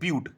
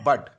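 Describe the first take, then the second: First: The vowel is a long 'yoo' sound. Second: The vowel is a short 'uh' sound. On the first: The speaker calls it right. "It is ब्यूट" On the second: The speaker calls it wrong. "Not बट"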